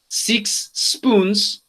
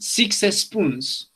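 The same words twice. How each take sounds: First: Spoons starts directly with the s sound. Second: An extra e sound comes before spoons. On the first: The speaker calls it right. "no pronuncian six spoons" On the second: The speaker calls it wrong. "pero pronuncian six spoons"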